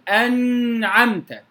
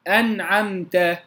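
First: The n sound carries a drawn-out nasal hum. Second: The n sound is light, with no nasal hum. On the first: The speaker calls it wrong. "ولا ميل إلى غنة، فلا أقول أنعمت" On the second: The speaker calls it right. "ويكون سكونها بلطف"

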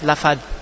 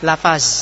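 First: The word ends in a th-like sound. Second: The word ends in a plain z sound. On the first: The speaker calls it right. "mereka ngucap lafaz. Lebih mirip ke bahasa Arabnya" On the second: The speaker calls it wrong. "mereka ngucap lafaz, lafaz, akhirnya berubah menjadi Zayun"

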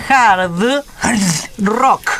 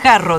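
First: The final consonants are pronounced firmly and clearly. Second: The final consonants are dropped and the words merge. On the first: The speaker calls it right. "la pronunciación muy, muy firme de las últimas letras" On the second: The speaker calls it wrong. "Usted dice jarro"

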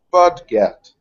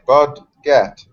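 First: The two syllables run together as one word. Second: The two syllables are said apart, with a break. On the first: "it's all one word" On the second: "like bud get"

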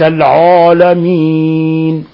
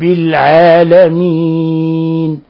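First: The first vowel sounds heavy and dark. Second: The first vowel sounds light and thin. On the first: The speaker calls it wrong. "هذا لحن تفخيم الحروف" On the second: The speaker calls it right. "الحمد لله رب العالمين وليس العالمين"

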